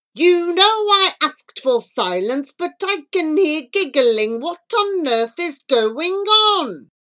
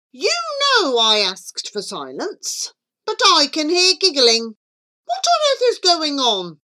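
First: Loud, high, slow telling-off; angry teacher. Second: Fast, no punctuation. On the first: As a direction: scold the giggling class slowly. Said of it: "Whenever Mister Wind was angry". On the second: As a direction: run it together without pauses. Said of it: "he spoke very fast and without punctuation". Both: A narrator's reading.

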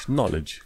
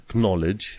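First: "knowledge" as "nol-ij"; silent K. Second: "knowledge" with a hard K first; wrong, K sounded. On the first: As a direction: start "knowledge" straight on N. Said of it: "K-ul ăla nu se pronunță". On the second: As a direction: pronounce the K in "knowledge". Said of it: "nu pronunți knowledge cu K". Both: Shown as a demonstration.

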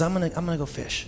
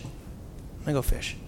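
First: Said in the usual way. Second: Slower, softer, dropped almost to a whisper; withdrawn mutter. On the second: Retold or imitated. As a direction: say it like he is pulling away from everyone. Peter retreating to fishing.

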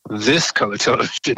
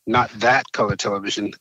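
First: "this" picked out as the right one; imitated correction, landing firmly on "this"; stress on THIS. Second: Imitated correction with "that" picked out; stress on THAT. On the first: Peers point him to newer shows, stressing "this". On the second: Peers correct his choice of TV show, stressing "that". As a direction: lean on "that" to rule it out.

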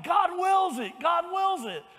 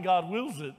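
First: High, loud chant of God wills it; war cry shout. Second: Said in the usual way. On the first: Retold or imitated. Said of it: "they just kept shouting". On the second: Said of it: "ungodly men shouting".

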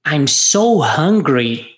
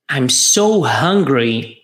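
First: Slow, clear model line; drawn out so students can copy; slow repeat-after-me. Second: Slower still, lower; slow repeat-after-me. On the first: Teacher giving a line to repeat, slowly. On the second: Teacher repeating the model line for students, slowly. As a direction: leave room for students to echo. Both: Shown as a demonstration. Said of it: "Vamos repetir?".

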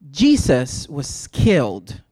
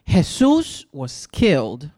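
First: Jesus said the English way, JEE-zus, slowly; slow, low line with Jesus pronounced JEE-zus. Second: Jesus said the Spanish way, heh-SOOS, slowly; slow, low line with Jesus pronounced heh-SOOS. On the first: Preacher likening the killed man to Christ, Jesus as JEE-zus. English name set against Spanish name. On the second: Preacher naming the man killed for speaking Spanish, Jesus as heh-SOOS. Spanish name set against English name. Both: Shown as a demonstration.

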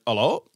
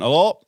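First: Lightly imitated lad answering the phone; casual questioning hello at usual pitch; a hint of a young man picking up. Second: Lightly voiced old man answering the phone; slightly raised, louder questioning hello; a hint of an old man picking up; old boy. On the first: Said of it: "this young lad went". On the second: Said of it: "this old boy answered".

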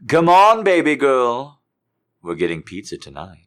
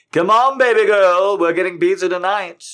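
First: Higher, louder cheerful shout; peppy excited call; cheerful hype. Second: Much higher, louder squeal; shrill excited repeat; over-the-top hype. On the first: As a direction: pump up the crowd. Cheerful version. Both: Acted.

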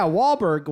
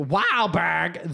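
First: Said in the usual way. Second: Broad Boston "Wahlberg"; Boston accent. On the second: Acted. Naming the most Boston guy ever, Boston accent. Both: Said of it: "the most Boston guy ever".

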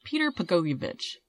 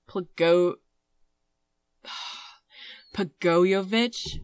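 First: "Peter Pagoyevich" stated with a falling end; settled pronunciation. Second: Slow, questioning "Pagoyevich", rising at the end; sigh, then sound out "Pagoyevich" as a drawn-out question; unsure pronunciation. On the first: Host committing to the man's name, settled and decided. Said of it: "That's what I'm going with". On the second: Host attempting a Serbian surname, unsure and questioning. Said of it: "Just pick something and, and stick with it confidently". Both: Real, not acted.

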